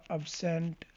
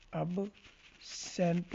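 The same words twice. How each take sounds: First: Said in the usual way. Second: ابسینٹ very slowly, split after the b; broken-up pronunciation. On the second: Shown as a demonstration. Teacher showing learners the B sound, ابسینٹ slowly broken in two. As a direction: draw out ابسینٹ in two separate parts. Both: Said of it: "sound اس کی با کی طرح".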